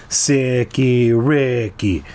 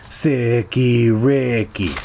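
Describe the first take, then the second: No difference in how they are said.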